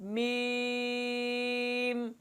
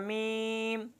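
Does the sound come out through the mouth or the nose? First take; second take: mouth; nose. First: The letter name is said through the mouth. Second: The letter name is said through the nose. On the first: The speaker calls it right. "मुंह से आवाज़ निकालना, नाक से न निकालना" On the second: The speaker calls it wrong. "नाक में पढ़ना"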